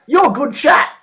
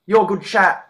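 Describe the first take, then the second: First: Put-on high, louder girly voice; bright mock compliment; quoting her. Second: Said in the usual way. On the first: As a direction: chirp it like the impressed date. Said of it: "She goes". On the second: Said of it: "to me".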